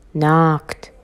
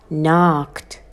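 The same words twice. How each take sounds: The two takes are said the same way.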